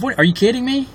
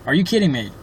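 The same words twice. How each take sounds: First: Shrill disbelief, pitch jumps way up; can't believe what she hears; incredulous. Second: Said in the usual way. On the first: Real, not acted. Incredulous at being called too involved.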